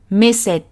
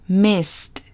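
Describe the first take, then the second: First: The ending is said as an extra syllable. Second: The ending is said as a single t sound. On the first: The speaker calls it wrong. "no es missed" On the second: The speaker calls it right. "es missed, ... pronunciando la M, I, S, S y T"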